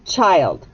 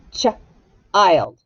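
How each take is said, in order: First: Said in the usual way. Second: "Ch-ild" split into ch, pause, ild; tapped-out sounds. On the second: Shown as a demonstration. Teacher taps out the base word for pupils, "Ch-ild" sounded out in two parts. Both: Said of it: "let's tap out the base word".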